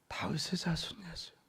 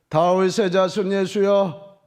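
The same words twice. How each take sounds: First: It is said very quietly, like a fly. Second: It is said in a raised, loud voice.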